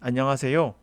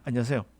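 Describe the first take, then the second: First: Every syllable is pronounced fully and clearly. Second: The syllables are run together and reduced. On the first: This is not how native speakers usually say it. "이거는 원어민들이 자주 사용하는 표현이 아니에요" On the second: This is how native speakers actually say it. "이렇게 했어요"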